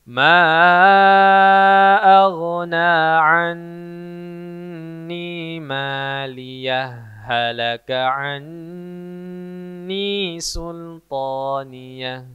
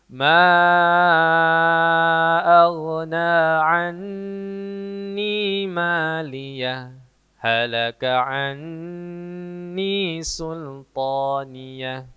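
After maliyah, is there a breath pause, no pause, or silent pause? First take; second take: no pause; silent pause. First: Maliyah runs straight into halaka without stopping. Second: It stops briefly after maliyah without a breath. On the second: "Berhenti sejenak tanpa menarik nafas"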